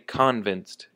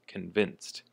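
First: The stress is on the first syllable. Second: The stress is on the second syllable. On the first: The speaker calls it wrong. "not on the con. Don't say convinced" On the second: The speaker calls it right. "the emphasis is on the vin"

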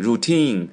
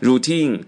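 First: The stress is on the second syllable. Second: The stress is on the second syllable.

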